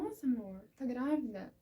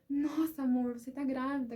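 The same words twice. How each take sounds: First: Said in the usual way. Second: Higher and louder, overjoyed; joyful exclamation. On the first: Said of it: "Mas não foi assim aquele". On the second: Retold or imitated. Husband hearing wife is pregnant, overjoyed exclamation. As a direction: burst out with delight at the news. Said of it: "com aquela alegria".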